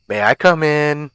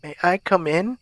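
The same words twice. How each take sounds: First: Clear, lightly raised asking voice; lightly voiced caller seeking entry; stranger at the door. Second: Put-on high old lady voice, rising at the end; higher-pitched elderly caller, question lilting up; elderly woman. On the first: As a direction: ask through a closed door to be let in. Figure asks to be let in. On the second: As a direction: ask like an old woman at the door. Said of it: "asked an elderly woman". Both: A narrator's reading.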